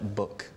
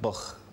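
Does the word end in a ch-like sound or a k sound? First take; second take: k sound; ch sound. First: The word ends in a hard k sound. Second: The word ends in a ch-like sound. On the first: "the pronunciation of K" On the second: "You get buch"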